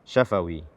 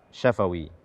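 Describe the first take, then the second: No difference in how they are said.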